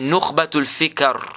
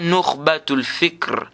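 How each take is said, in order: First: An a vowel is heard between k and r. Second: The k is followed directly by r, no vowel. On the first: The speaker calls it right. "il y a le fatha sur le kaf. Il n'y a pas de soukoun" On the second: The speaker calls it wrong. "c'est pas Nukhbatul Fikr"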